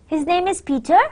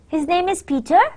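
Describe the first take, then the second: First: It is said as a polite, questioning enquiry. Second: The same.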